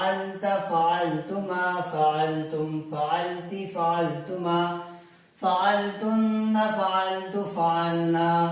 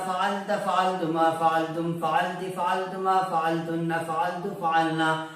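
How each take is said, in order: First: It is said slowly, with a breath taken midway. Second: It is said quickly, all in one breath.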